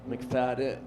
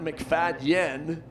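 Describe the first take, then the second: First: The name ends with a 'den' sound. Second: The name ends with a 'dyen' sound. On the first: The speaker calls it right. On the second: The speaker calls it wrong.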